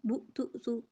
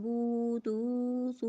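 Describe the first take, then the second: First: The vowels are cut off with a jerk. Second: The vowels are stretched out too long. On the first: "ना ही झटका" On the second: "ना ही मिक़दार में ज़्यादा करना है"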